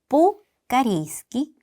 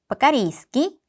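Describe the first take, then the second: First: The first syllable is stressed with a clear o. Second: The first syllable is unstressed with a reduced a. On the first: "제가 방금은 뽀라고 강조를 해드렸지만" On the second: "원어민처럼 발음을 할 때는 ... 빠로 발음을 해주셔야 합니다"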